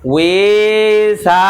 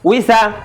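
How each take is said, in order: First: A vowel is drawn out long. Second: The vowels are said short and quick. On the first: The speaker calls it wrong. "তার টান হয়ে গেল হবে না" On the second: The speaker calls it right. "তাড়াতাড়ি"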